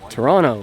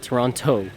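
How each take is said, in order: First: The T sound is soft or dropped. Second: The T sound is strong and heavy. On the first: This is how people who live there say it. The speaker calls it right. "as the locals would say" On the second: This is how an outsider says it. The speaker calls it wrong. "With a strong, heavy T"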